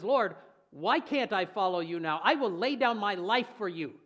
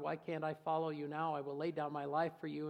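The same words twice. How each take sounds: First: Loud, bold vow to his Lord; a brash disciple's confident promise; bold bragging Peter. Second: Said in the usual way. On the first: Retold or imitated. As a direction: declare it proudly for all to hear. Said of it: "the word braggart". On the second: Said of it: "the same words read plainly from scripture".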